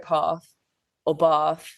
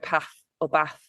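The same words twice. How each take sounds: First: The vowels are said in a southern English accent. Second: The vowels are said in a northern English accent. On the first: "I'll go" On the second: "a northerner would go"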